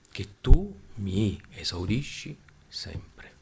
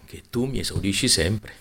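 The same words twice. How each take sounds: First: Word by word, drawn out; slow, deliberate repeat. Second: Said in the usual way. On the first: Shown as a demonstration. Preacher repeating Jesus' prayer to the congregation, slowly and deliberately. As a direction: spell it out slowly, pausing between words.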